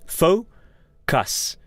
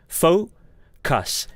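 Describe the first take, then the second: Both takes have the same delivery.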